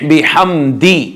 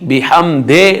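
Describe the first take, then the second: First: The word ends in an i vowel. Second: The word ends in an e vowel. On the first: The speaker calls it right. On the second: The speaker calls it wrong.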